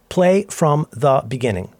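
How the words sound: It is said carefully, with every word over-enunciated.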